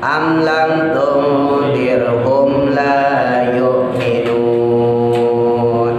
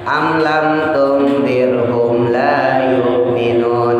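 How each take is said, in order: First: The vowel before the final n is held longest. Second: The vowel before the final n is held briefly. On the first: "kita baca enam paling panjang enam" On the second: "Seandainya kita baca dua harokat ya"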